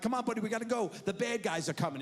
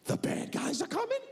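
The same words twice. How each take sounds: First: Put-on raised, playful urgency to a child; urgent dad. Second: High-pitched alarmed question; alarmed child. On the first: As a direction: hurry your buddy along. Dad urges son along on ride. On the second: Retold or imitated. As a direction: squeak it as a frightened kid's question. Son's alarmed question, retold.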